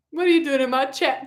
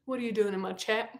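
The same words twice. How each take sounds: First: "What are you doing in my chat" spoken out firmly, with a hard end on "chat"; firmer repeated question. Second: Soft, low, rising question; hushed questioning. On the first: Streamer confronts Tom Riddle, firm stress up to "chat". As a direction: press the question, landing crisply on "chat". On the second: Streamer questions Tom Riddle in her chat, hushed disbelief. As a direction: ask it quietly, as if taken aback. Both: Pretend.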